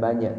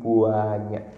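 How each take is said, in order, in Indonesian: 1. Kata itu diucapkan biasa dan singkat. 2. Kata itu dipanjangkan dengan penekanan kuat. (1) "bukan banyak" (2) "tapi banyak ... Saking banyaknya nggak bisa dihitung"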